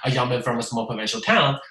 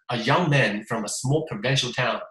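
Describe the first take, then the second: First: The syllables come out evenly with a flat rhythm. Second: The stress varies naturally across the phrase. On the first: The speaker calls it wrong. "你呢？ ... 就糟糕了" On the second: The speaker calls it right. "人家本来是"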